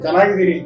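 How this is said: It is said in an irritated, impatient way. The speaker has lost patience with the repeated question. "ಎಷ್ಟ್ ಸಲ ಹೇಳೋದು ಅದನ್ನೇ ಕೇಳ್ತಾವ"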